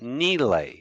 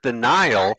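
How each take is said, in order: First: The word is said the unfamiliar local way. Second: The word is said the familiar English way. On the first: The speaker calls it right. "It's pronounced Nile" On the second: The speaker calls it wrong. "we pronounce it the Nile. That is not how it's pronounced"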